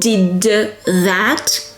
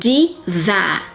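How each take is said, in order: First: The final d of 'did' is clearly pronounced. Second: The final d of 'did' is dropped. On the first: The speaker calls it wrong. "which is not a natural way of saying it" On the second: The speaker calls it right. "you drop the first consonant"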